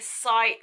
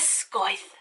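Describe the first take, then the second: First: The word sounds like 'cite'. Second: The word sounds like 'scoith'. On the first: The speaker calls it right. "it's usually like cite Faraday" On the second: The speaker calls it wrong. "I kept wanting to read it as scoith"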